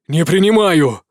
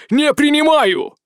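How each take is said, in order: First: Loud sharp refusal; exclaimed. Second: Slow, raised, emphatic no; higher, louder insistent refusal. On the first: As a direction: throw out a firm no. (громкий возглас) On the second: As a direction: refuse harder, voice climbing. (настойчивый, повышенный отказ) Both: Acted. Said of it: "воскликнул Яз".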